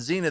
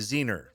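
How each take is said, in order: First: The word ends in a plain vowel. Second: The word ends with an added R sound. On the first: The speaker calls it right. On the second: The speaker calls it wrong.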